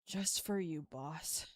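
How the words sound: The tone sounds let down and disappointed.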